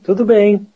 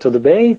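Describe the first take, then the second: First: The voice falls at the end like a statement. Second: The voice rises at the end like a question. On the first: Answering that all is well. "and answer" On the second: Asking how someone is.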